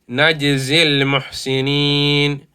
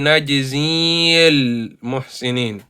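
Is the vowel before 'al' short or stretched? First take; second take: short; stretched. First: The vowel is cut short and joined straight on. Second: The vowel before the article is stretched. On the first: The speaker calls it right. "We're not going to stretch it. We're going to say" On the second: The speaker calls it wrong. "we do not say"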